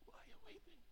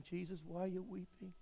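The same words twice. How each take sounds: First: "Why are you weeping?" breathed in a whisper. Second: Said in the usual way. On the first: Acted. Same question whispered.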